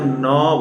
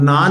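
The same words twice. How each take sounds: First: न with a short, rounded inherent vowel; the correct न, short a instead of aa. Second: ना with a full, open आ; the wrong ना, vowel fully open; long aa. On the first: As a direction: say न lightly, without opening it to आ. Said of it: "हम न बोल रहे हैं". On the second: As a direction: stress ना and give it a long aa. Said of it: "हम ना नहीं बोल रहे". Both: Shown as a demonstration.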